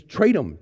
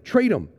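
First: Raised, pressing repeat of Trade him; urgent but not yet peaked; urgent retold plea. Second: Louder, higher second trade him; urgent, climbing repeat; pushed higher plea. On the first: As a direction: start urging him to trade. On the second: Retold or imitated. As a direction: push the plea up a notch. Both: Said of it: "and he says".

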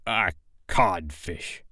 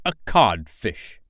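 First: Soft, slow, stunned repeat; hushed, dumbfounded captain; blank echo. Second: Slow, deliberate taunt; drawn-out, scornful answer; taunting reply. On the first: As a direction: echo it quietly and emptily. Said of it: "Hook echoed blankly". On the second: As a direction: deliver the insult deliberately. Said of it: "replied the voice". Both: A narrator's reading.

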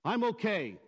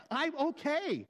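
First: Said in the usual way. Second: High, testy insistence; insistent denial. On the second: Shown as a demonstration. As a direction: pitch it up and insist you're fine. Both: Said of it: "but they express different meanings".

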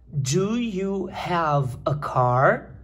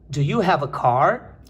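First: Drawn out word by word; very slow model reading. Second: Slightly slow, connected question; slow model repeat. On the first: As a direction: read it very slowly for learners. Professora lê a frase como modelo. (leitura modelo bem lenta) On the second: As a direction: repeat it more fluently, still measured. Repete a frase modelo menos devagar. (repetição pausada e mais ligada) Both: Shown as a demonstration.

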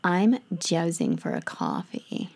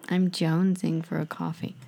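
First: Hushed mock American craving; American accent. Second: Voiced American "I'm jonesing for a coffee"; lightly American craving line; American accent. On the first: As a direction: breathe it like a caffeine-starved American. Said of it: "need to think of my American accent". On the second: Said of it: "think of my American accent". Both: Shown as a demonstration.

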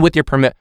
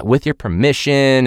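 First: Mocking presenter. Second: Performative formal voice. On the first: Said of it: "What do you mean". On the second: Retold or imitated. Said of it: "seems too performative".

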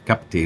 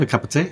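First: "Cup of tea" blended into one word, kupatee; run together as one word. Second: "a cup of tea" said as separate words. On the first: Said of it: "It'd be one word". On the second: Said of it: "instead of". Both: Shown as a demonstration.

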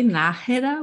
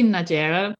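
First: Nájera with a soft breathy h for the j; softer J. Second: Nájera with the j as an English "zh", "NAH-zheh-ra"; wrong pronunciation. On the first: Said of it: "with a softer J". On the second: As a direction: say nájera anglicized with a "zh" sound. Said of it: "if you say nájera". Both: Shown as a demonstration.

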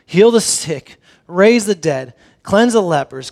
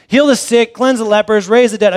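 First: Said in the usual way. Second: Offhand Jesus. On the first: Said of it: "Jesus is saying". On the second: Retold or imitated. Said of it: "Jesus is saying, you know, "Here, go and do all this".

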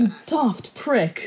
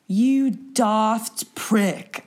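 First: Slowed mock British jab on daft; a second go at the British line; British accent attempt. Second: Slow, drawn-out mock British insult; a clumsy stab at a British accent; British accent attempt. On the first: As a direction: sound it out the British way. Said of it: "Something like that". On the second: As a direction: try a British accent and fail. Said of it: "I can't do the, the accent".

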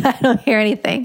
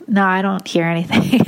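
First: Repeating it through a small laugh; flustered self laughing as she insists; laughing denial. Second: Said in the usual way. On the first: Retold or imitated. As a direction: laugh it off in disbelief. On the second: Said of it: "And I was like".

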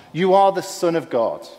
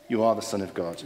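First: High, raised demons' cry; mildly hammed desperate outcry; desperate shout. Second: Said in the usual way. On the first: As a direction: call out desperately, higher than usual. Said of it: "in their desperation, once again, they shouted out".

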